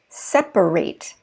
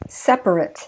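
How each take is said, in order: First: The last syllable is a full 'ate' sound. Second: The last syllable is a short 'it' sound. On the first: The word is used as a verb. "if I use it as a verb" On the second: The word is used as an adjective. "I changed the pronunciation of the ate"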